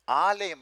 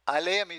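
First: The first vowel is held long. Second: The first vowel is cut short. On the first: It means house. "with a long A" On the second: It means ocean. "when you shorten it"

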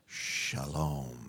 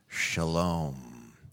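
First: It is said in a low voice. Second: It is said in a normal voice.

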